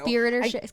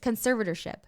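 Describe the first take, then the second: First: The word begins with 'conspir', like conspiracy. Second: The word begins with 'conserv', like conserve. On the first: The speaker calls it wrong. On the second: The speaker calls it right.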